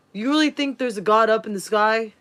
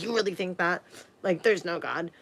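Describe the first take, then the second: First: Mock-scornful stepdad asking about God; shaming, condescending. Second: Softer, sneering put-down; condescending. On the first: Stepdad shaming a five-year-old, condescending mock. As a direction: belittle a child's faith. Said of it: "trying to shame me into not believing in God with the tone of voice". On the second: Retold or imitated. Stepdad belittling a child's belief in God, condescending. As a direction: talk down to a small child. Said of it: "he was talking to me condescending".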